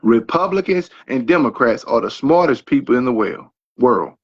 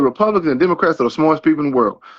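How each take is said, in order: First: It is said slowly. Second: It is said fast.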